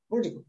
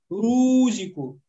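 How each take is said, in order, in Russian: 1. Последнее у урезано и почти не слышно. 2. Последнее у растянуто в долгий гласный. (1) "Например, вот так. Рузик. Домма неполная, не на 100%" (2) "после доммы даже появляется буква «харфульмет» и говорит «рузику». Рузику тоже ошибка"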